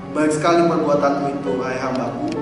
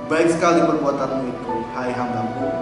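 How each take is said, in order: The two takes are said the same way.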